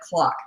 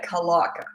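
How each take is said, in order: First: The C and L are said together. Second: A vowel separates the C and L sounds. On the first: "she could not say like clock" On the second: "She couldn't say the C and the L together"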